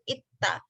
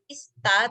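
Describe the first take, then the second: First: The middle consonant is pronounced as a t sound. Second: The middle consonant is pronounced as an s sound. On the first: The speaker calls it right. "tapi ita gitu, pakai diget" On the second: The speaker calls it wrong. "bukan ista"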